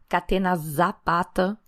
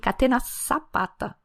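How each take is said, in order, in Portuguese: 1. O z é pronunciado como um som de z vibrado. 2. O z é pronunciado como um som de s sibilante. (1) "para de falar" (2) "escreve com Z, mas pronuncia como S"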